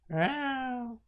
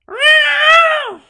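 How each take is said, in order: First: It is said a little louder. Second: It is yelled at full volume.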